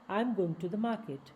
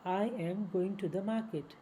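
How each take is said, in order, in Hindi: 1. 'I am' एक ही शब्दांश में छोटा हो जाता है। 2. 'I am' दो पूरे शब्दों की तरह बोला जाता है।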